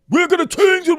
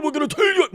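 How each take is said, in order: First: High, loud mock rally voice; hammed-up stump-speech promise; mock pompous leader. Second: High mock shout on change. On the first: Mocking a politician's empty promise, high and loud. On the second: Mocking a politician's promise with a high shout. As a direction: yell it like a rally crowd-pleaser.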